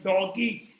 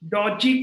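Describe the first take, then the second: First: The middle consonant is a hard G sound. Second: The middle consonant is a soft J sound. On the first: "dog ही था" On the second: "Doji pronounce करते हैं"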